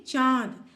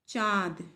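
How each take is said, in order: First: चांद said slowly, the nasal vowel held through nose and mouth; चांद slowly sounded out for pupils; nasal vowel demo. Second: Said in the usual way. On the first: Shown as a demonstration. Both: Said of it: "बोलिए चांद".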